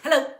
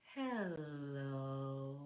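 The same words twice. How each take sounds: First: It is said very quickly. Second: It is said very slowly.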